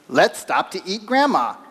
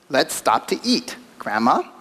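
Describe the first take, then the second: First: There is no pause before Grandma. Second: There is a pause before Grandma.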